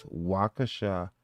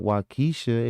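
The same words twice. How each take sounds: First: Waukesha slowly as "WAW-kuh-shah"; Waukesha as Google says. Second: Waukesha as "waw-KEE-shuh"; Waukesha his own way. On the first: Retold or imitated. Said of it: "you see what it pronounced it as". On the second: Shown as a demonstration. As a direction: stress the long KEE in Waukesha. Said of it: "if it was not Waukesha".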